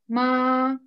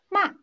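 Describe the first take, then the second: First: The pitch stays high and level. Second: The pitch falls sharply and quickly. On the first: "Первое слово в первом тоне" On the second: "четвертый тон, резкий, падающий вниз"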